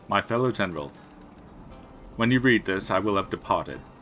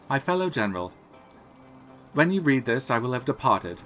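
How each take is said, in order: First: It is read in a plain, ordinary voice. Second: It is read in a put-on character voice. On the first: The speaker calls it wrong. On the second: The speaker calls it right.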